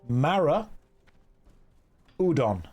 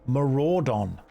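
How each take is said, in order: First: The name is split into two separate words. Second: The name is said as one word, like 'marauder'. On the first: The speaker calls it wrong. "I am pronouncing that phonetically correctly" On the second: The speaker calls it right. "I think it's Marauder. Maraudon"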